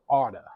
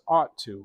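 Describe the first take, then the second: First: The words blend into one reduced word. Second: Both words are said fully and separately.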